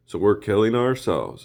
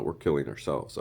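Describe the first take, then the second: First: Louder, rising mock outrage; indignant retort. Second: Said in the usual way. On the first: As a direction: throw the accusation back, louder. Mocking retort, repeated louder.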